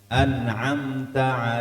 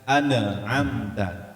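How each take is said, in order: First: The n is released cleanly without bouncing. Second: The n bounces with an added vowel sound. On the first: The speaker calls it right. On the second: The speaker calls it wrong.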